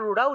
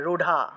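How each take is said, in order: First: The middle consonant is a light r-like flap. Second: The middle consonant is an aspirated dh stop. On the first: This is the usual local way of saying it. "আমরা যেটা যেটা রুড়া উচ্চারণ করি" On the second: This is how the original language says it. "সংস্কৃত ভাষায় ওরা রুঢা উচ্চারণ করে"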